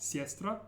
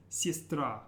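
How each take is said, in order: First: "siestra" stressed on the first part, not the last syllable; wrong stress. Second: "sistra" with emphasis on the final "tra"; stress on last syllable. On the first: Teacher showing learners the mistake to avoid, early stress. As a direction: put the weight early in "siestra", off the final a. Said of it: "watch your stress. It's not". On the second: Teacher correcting the stress for learners, final syllable stressed. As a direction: land the weight on the end of "sistra". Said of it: "emphasis is on the very last syllable". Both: Shown as a demonstration.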